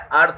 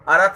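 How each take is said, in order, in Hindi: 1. r सीधे th से जुड़ता है, कोई स्वर नहीं। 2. r और th के बीच एक स्वर बोला जाता है। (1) "अर्थ होता है" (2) "अर्थ नहीं होता है"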